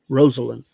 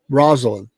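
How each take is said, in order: First: The first syllable sounds like 'Rosie'. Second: The first syllable does not sound like 'Rosie'. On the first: The speaker calls it right. "which is a good way to remember how her name actually is pronounced" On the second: The speaker calls it wrong. "not repeat, not Rosalind"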